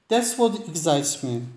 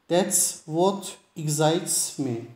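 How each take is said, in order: First: The sentence is said quickly, as in fast speech. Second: The sentence is said at a normal, careful speed.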